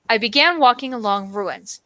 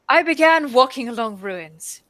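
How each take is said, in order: First: It is read in an ordinary accent. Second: It is read in a put-on British accent.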